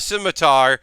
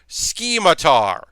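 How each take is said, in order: First: The word is said as scimitar. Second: The word is said as schematar.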